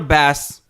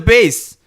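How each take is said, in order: First: It rhymes with mass, like the fish. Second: It rhymes with base, like the instrument. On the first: It is a joke about the fish. The speaker calls it wrong. "Don't call it a bass. It's not funny" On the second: It names the instrument. The speaker calls it right. "It's a bass"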